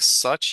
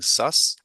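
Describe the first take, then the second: First: The word ends with a ch sound. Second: The word ends with an s sound. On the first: The speaker calls it right. "instead of such" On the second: The speaker calls it wrong. "you were pronouncing that as an S"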